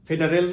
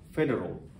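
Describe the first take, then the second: First: The final syllable does not sound like 'ol'. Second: The final syllable sounds like 'ol'. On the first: The speaker calls it wrong. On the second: The speaker calls it right.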